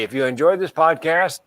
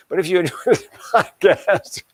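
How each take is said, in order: First: Said in the usual way. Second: Higher, words broken up by a chuckle; amused, laughing at own joke while talking. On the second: Real, not acted. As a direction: laugh through the repeated plug. Laughs after own self-deprecating joke.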